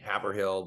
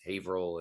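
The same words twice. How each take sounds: First: The name is said just as it is spelled. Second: The name is said differently from its spelling. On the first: This is how the spelling suggests it sounds. The speaker calls it wrong. "it should be Haverhill" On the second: This is how locals actually say it. The speaker calls it right. "but it's Haverhill"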